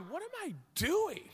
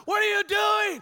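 First: A hint of baffled inner voice, higher; bewildered self. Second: High, loud angry coach shout; coach yelling. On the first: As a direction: mutter it to yourself in disbelief. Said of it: "And I remember doing it going". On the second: Retold or imitated. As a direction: bellow it from the sideline at your player. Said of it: "he's screaming".

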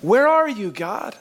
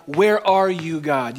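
First: Anguished cry. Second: A bold, slightly raised question to God. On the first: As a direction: cry it out to God in despair. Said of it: "You ever found yourself saying that". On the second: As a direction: ask God where he is, searching. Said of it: "the audacity to say to God". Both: Retold or imitated.

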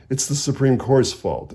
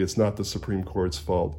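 First: Said in the usual way. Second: It's not: "not" lengthened and stressed; emphatic not. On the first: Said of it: "The seven justices of the Supreme Court". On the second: Shown as a demonstration. Author rejecting the blame on the justices, stress on "not". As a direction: lean hard on "not" as a firm denial. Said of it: "will say emphatically".

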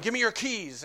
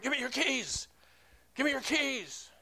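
First: Milder mock yell, raised pitch; half-strength imitation of a yelled demand; retold yelling. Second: Imitated yelling. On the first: Homeless man keeps demanding keys, toned-down imitated yell. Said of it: "he just kept yelling". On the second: Homeless man demanding keys from the pastor, imitated yell. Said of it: "he was yelling, like".

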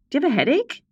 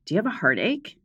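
First: Mock ad question, pitched up; rising pitch, playful infomercial tone; jokey commercial question; higher, louder on headache. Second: Said in the usual way. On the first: Podcast intro, ad-style read.

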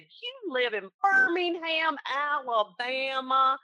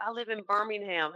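First: Hammed-up Southern drawl, high and very slow; thick Southern accent. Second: Lightly imitated Southern good old boy; Southern accent. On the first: Agent echoes good old boy client, hammed-up thick Southern accent. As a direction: stretch out every word in a thick Southern accent. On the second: Client tells agent where he lives, lightly imitated Southern accent. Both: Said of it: "thickest Southern accent".

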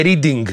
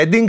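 First: Reading said REE-ding, like reading a book; as written. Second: Reading said RED-ding, with a short e; as pronounced. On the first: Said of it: "Γράφουνε". (Reading όπως γράφεται, «Ρίντινγκ») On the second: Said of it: "και προφέρεται". (Reading με έψιλον, «Ρέντινγκ») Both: Shown as a demonstration.

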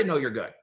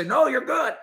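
First: Said in the usual way. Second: High, light mock reassurance "No, you're good". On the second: Host mimics the official who never answered, high mock reassurance. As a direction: squeak it out like a cheery official. Mocking what official should say.

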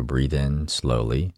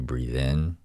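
First: Slowed right down, drawn out; slow breathing cue. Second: Said in the usual way. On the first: Shown as a demonstration. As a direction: stretch each word slowly. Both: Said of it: "because I want you to slow it down".

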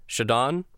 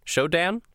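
First: "Shodan" with an AH in the last syllable, as a question; trying a pronunciation. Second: "Shodan" with a short A, ending like "Dan", higher; alternative pronunciation. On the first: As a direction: ask "Shodan?" rhyming the end with "don". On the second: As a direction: ask "Shodan?" as SHOW-dan, pitched up. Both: Shown as a demonstration. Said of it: "tell us how it's pronounced".

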